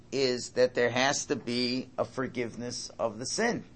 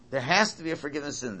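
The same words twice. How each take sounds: First: Said in the usual way. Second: "There has to be a forgiveness of sin" rushed out quickly, pitch a little up; fast repeat. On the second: Shown as a demonstration. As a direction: rattle the repeat off fast for emphasis.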